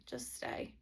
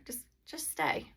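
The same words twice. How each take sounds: First: Just stay whispered gently and low; soft whisper. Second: Said in the usual way. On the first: Shown as a demonstration. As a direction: breathe it out like a quiet promise. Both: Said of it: "That's what I always say".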